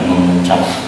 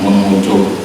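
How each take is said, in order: First: The last vowel is an open 'a' sound. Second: The last vowel is a rounded 'u' sound. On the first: The speaker calls it right. "Jadi bacaannya mengucap" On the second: The speaker calls it wrong. "Kalau yang salah baca mengucup"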